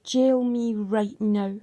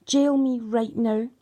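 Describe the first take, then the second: First: Slow, deliberate, insistent demand; slow defiant challenge to the court; retold demand. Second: Slow, pressing repeat of the demand; slow defiant repeat; retold demand again. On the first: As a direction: spell each word out at the police. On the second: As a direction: lean harder into the second one. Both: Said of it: "I screamed at them".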